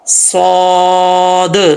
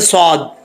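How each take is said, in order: First: The final d ends with a bouncing echo. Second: The final d stops abruptly without an echo. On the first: The speaker calls it right. "तो वहाँ पर जब स्टॉप करेंगे तो क़लक़ला आएगा" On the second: The speaker calls it wrong. "लोग अक्सर पढ़ते हैं सौद, ऐसे नहीं होता"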